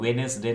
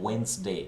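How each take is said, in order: First: It is said with three syllables. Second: It is said with two syllables. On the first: The speaker calls it wrong. "वेनेसडे नहीं बोलेंगे" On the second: The speaker calls it right. "वहां भी डी silent होता है"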